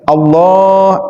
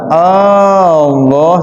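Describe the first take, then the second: First: The first vowel is kept short. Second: The first vowel is drawn out long. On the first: The speaker calls it right. "Allah hanya pendek" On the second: The speaker calls it wrong. "Allahnya jangan terlalu panjang, Allah jangan gitu"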